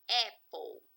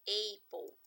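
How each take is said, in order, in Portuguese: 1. A primeira vogal soa como "eh". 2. A primeira vogal soa como "ay". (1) "Como se fosse uma letra E com acento aqui no início da palavra" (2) "falam essa palavrinha aqui de uma forma errada, pronunciam apple"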